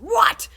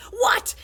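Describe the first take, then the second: First: Huge high yell, rising. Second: Huge high yell. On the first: Principal yells into the wrong end, loud. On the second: Principal yells into the right end, loud. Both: Acted.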